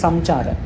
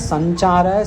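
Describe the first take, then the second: First: The nasal is a plain m before ch. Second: The nasal takes the mouth position of ch. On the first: The speaker calls it wrong. "हमको उच्चारण वैसे नहीं करना है" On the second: The speaker calls it right. "जो बाद में है उसका उच्चारण करेंगे हम"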